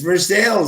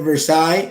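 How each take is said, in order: First: It is said the Kentucky way, ending like 'sales'. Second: It is said the French way, ending like 'sigh'. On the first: This is how the town in Kentucky is named. The speaker calls it right. "It's Versailles" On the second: This is how the place in France is named. The speaker calls it wrong. "you're saying it wrong"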